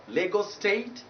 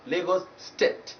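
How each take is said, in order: First: "State" with a gliding ay; diphthong ay. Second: "State" as "stet"; wrong short vowel. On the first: Teacher naming the state correctly, diphthong ay. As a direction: let "State" glide from e to i. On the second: Teacher showing the wrong state name, short e. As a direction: cut the glide, short e in "State". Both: Shown as a demonstration. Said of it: "You don't pronounce it as".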